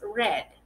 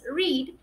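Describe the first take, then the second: First: The word sounds like the color 'red'. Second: The word does not sound like 'red'. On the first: The action happened in the past. "en pasado es red. Red, como si estuvieses diciendo el color rojo" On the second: The action happens in the present. "En presente es read"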